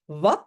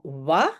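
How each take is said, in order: First: The final t is clearly pronounced. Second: The final t is dropped. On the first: It is the standard form. "on ne prononce pas la fin" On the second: It is informal in-between speech. "Wat devient souvent wa"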